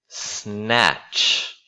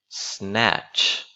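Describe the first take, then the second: Both takes have the same delivery.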